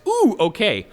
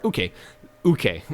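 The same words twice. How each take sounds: First: "ooh, okay" split apart, high "ooh"; okay spelled out. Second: "Uke" as one squeezed-together word; shortened okay. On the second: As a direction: squash "okay" down into a brisk "Uke". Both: Shown as a demonstration. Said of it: "A shortening thereof".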